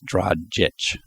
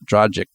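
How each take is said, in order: First: The name ends with a ch sound. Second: The name ends with a hard g sound. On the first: The speaker calls it right. "It ends with a ch, not a g" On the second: The speaker calls it wrong. "Dragic is not right"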